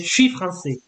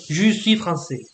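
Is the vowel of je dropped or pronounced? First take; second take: dropped; pronounced. First: The vowel of je is dropped. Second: The vowel of je is fully pronounced. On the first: This is casual, familiar speech. "you might hear some people say" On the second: This is the standard form. "instead of"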